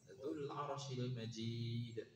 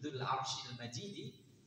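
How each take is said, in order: First: The last word ends without a final vowel. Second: The last word ends in an i vowel. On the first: "harokatnya tidak kita baca gitu kan. Kita wakafkan" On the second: "Kalau dibaca Majidi, ... maka kembalinya ke Arsh"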